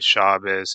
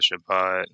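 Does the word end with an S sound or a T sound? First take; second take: S sound; T sound. First: The word ends with an S sound. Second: The word ends with a T sound. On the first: "they'll say Shabbos" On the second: "instead of Shabbat"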